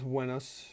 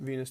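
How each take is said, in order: First: The name is given a Latin pronunciation. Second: The name is given an English pronunciation. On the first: "I should pronounce Venus in proper Latin" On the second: "in English we would pronounce it Venus today"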